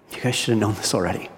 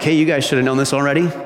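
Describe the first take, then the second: First: It is said in a sad tone. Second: It is said in a smug tone.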